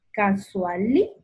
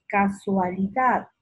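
First: "Casualidad" as casuaLI, pause, dad; stress on LI. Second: Said in the usual way. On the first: Shown as a demonstration. Teacher marking the tonic, split "Casualidad" after a stressed LI. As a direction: lift LI in "Casualidad" and stop before dad. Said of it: "La li y sílaba tónica". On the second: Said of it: "separa en sílabas".

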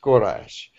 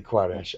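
First: Quraysh begun like "gor", ending in "ash"; our pronunciation of Quraysh. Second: Quraysh begun with "kwa", ending in "ash"; your pronunciation of Quraysh. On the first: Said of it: "we say more Quraysh". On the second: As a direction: say Quraysh as "kwa-RASH", with a w after the k. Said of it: "But you say Quraysh". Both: Shown as a demonstration.

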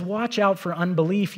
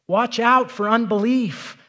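First: Said in the usual way. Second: Watch out for unbelief louder and slow, leaning on out; emphatic repeat. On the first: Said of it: "When he says". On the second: Shown as a demonstration. Urging the congregation to hear it, louder and slow. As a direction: drive the warning home, louder and slow. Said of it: "you need to hear it".

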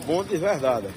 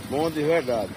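Both takes have the same delivery.

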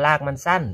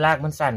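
First: รากมันสั้น in standard central Thai tones, no Korat accent. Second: รากมันสั้น with Korat Isan tones, like a local from Korat; Korat accent. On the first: Farmer contrasts the standard Bangkok wording, central Thai accent. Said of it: "ถ้าภาษากลางก็". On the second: Farmer shows viewers how Korat people say it, Korat accent. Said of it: "ไอ้คนโคราชเนาะ สำเนียงมันจะประมาณนี้". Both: Shown as a demonstration.

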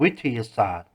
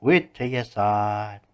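First: Mildly mocking echo of "วิทยาศาสตร์"; sneering. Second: Slow, drawn-out mocking "วิทยาศาสตร์"; sneering. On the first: Mr. D echoes the boy's appeal to science, sneering. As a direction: repeat the word with understated scorn. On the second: Mr. D scoffs slowly at science, sneering. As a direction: stretch every syllable in scorn. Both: A narrator's reading. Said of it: "คุณดีทำน้ำเสียงเย้ยหยัน".

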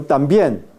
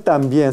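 First: "también" said as "tambien", lips closed on the m; correct pronunciation. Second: "también" split as "tan bien", with an n before the b; wrong pronunciation. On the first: Teacher giving the correct "también" with an m. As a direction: say "también" as one word with an m before the b. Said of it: "No es también, sino". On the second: Teacher imitating the Korean students' "tan bien". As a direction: imitate the mistake: "tan" then "bien", an n sound. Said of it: "pronuncian esto como tan bien". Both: Shown as a demonstration.

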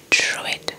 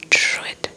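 No difference in how they are said.

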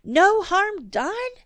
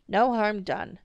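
First: "No harm done?" pitched way up, slow, loud; exasperated echo. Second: Said in the usual way. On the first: A narrator's reading. Mother repeating father's words, exasperated. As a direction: throw "No harm done?" back in disbelief. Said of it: "thoroughly exasperated".

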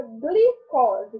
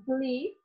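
First: Said in the usual way. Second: "glicose" in three parts, "gli", "co", "se"; syllable by syllable. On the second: Shown as a demonstration. Teacher separating syllables for pupils, syllable by syllable. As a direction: break "glicose" up with a pause after each syllable. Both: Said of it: "vamos separar as sílabas".

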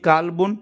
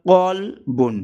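First: কালবুন with a plain light "k" and long "kaa"; small-k version. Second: কলবুন slow, with a deep throaty "q"; deep q sound. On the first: Teacher shows কালবুন with the plain light k. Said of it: "আর একটা হলো কলবুন". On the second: Teacher gives কলবুন with the deep throaty q. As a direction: say কলবুন slowly from the back of the throat. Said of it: "দুই নুক্তাওয়ালা কফ আছে". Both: Shown as a demonstration.

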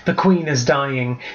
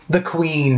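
First: Slow, mildly sorrowful, leaning on Queen; drawn-out grieving butler; understated sorrow, slow; sad. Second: A touch of sorrow, lifting on Queen; mildly grieving butler breaking the news; lightly sad announcement. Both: A narrator's reading. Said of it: "her butler spoke sadly".

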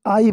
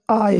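First: "I" said the way many people mistakenly say it; wrong "I". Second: "I" said carefully as the model pronunciation; correct "I". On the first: Teacher showing students a common slip, mispronounced "I". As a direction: mispronounce "I" as learners often do. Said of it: "तो ये I नहीं है". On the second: Teacher correcting how students say it, careful "I". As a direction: give "I" its taught, careful sound. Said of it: "I है". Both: Shown as a demonstration.

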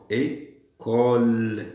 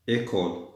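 First: "École" very slow, split as "é... cole"; syllable by syllable. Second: Said in the usual way. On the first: Shown as a demonstration. Teacher sounding out "École" to find its ending, drawn out. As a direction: hold the second syllable of "École" long. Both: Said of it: "لازمني le".

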